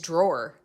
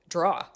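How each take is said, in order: First: It is said with the final r sound pronounced. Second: It is said in a New England accent.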